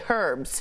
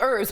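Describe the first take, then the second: First: The word is said the British way. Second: The word is said the speaker's usual American way. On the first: "like in Brit speak, they say herbs" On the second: "I think herbs"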